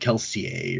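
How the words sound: The name is said with a French pronunciation. This is how it is said inside the story's world. "or however they would say that in French"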